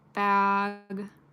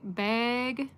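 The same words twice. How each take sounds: First: The word is said in a Southern accent. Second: The word is said in a Minnesotan accent. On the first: "Bag is the Southern accent" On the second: "bag is the Minnesotan accent"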